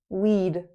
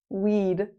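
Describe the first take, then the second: No difference in how they are said.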